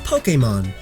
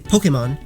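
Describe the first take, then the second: First: The word is said slowly and carefully. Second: The word is said quickly, vowels blurred. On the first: "It's pronounced Pokemon" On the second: "I said it quickly, and it sounds like Pokemon"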